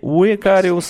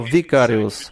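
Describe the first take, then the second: First: The word begins with a W sound. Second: The word begins with a V sound. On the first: The speaker calls it wrong. "не «уикариус»" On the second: The speaker calls it right. "а «викариус»"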